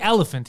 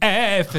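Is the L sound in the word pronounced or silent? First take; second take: pronounced; silent. First: The L sound is clearly pronounced. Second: The L sound is left out. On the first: This is the usual pronunciation. The speaker calls it right. "he doesn't say elephant" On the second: A rule from other words is wrongly applied. The speaker calls it wrong. "He says elephant. ... he applies the silent L to everything"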